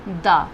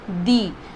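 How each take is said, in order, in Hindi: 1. यह शब्द छोटे 'uh' स्वर से खत्म होता है। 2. यह शब्द लंबे 'ee' स्वर से खत्म होता है। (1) "कॉन्सोनेंट के पहले अगर आया तो हम इसे बोलेंगे द।" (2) "वॉबल्स के पहले अगर आया तो हम क्या बोलेंगे"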